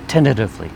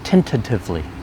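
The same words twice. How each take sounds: First: The word is said at a faster pace. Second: The word is said at a normal pace. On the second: "One more time"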